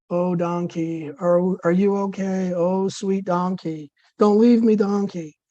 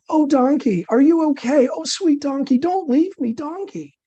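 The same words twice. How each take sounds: First: Less dramatic plea. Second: High, pleading wife crying over her donkey; dramatic worried wife. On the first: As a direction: coax the donkey without much drama. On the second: Wife begging her fainted donkey, high and dramatic. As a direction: fret over the fallen donkey, much higher. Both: Acted. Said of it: "with less dramatic effect than the wife".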